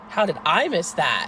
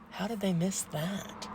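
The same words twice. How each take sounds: First: Loud self-questioning, punching the word I; stress on I. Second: Soft, slow puzzlement; quiet disbelief. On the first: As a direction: hit I louder than the rest. Same question turned on herself. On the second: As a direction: wonder it slowly under your breath. Puzzled reaction, set against next line. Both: Retold or imitated.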